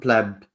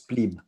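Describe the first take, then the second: First: The word is said with its Latin pronunciation. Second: The word is said with its English pronunciation. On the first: "you pronounce it in Latin pleb" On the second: "the pronunciation in English is plebe because you guys fuck it up"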